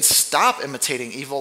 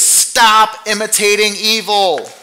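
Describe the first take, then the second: First: Said in the usual way. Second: Slow and loud, stop hammered hard; "Stop" punched with a falling tune, each word weighed; forceful command. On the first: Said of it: "What do you mean". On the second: Shown as a demonstration. Preacher giving the Greek its full force, slow and loud. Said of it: "the construction there in the Greek is".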